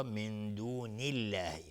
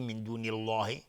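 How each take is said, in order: First: من دون الله with a light, thin lām, said slowly; من دون الله with a light الله after the kasra; correct thin Allah. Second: من دون الله with a thick, heavy الله; من دون الله with wrongly emphatic الله; wrong heavy Allah. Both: Shown as a demonstration. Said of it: "نمیگیم".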